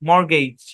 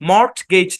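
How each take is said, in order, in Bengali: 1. মাঝখানে কোনো t ধ্বনির উচ্চারণ হয় না। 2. মাঝখানে একটি t ধ্বনির উচ্চারণ হয়। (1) "টি সাইলেন্ট" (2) "মর্টগেজ না"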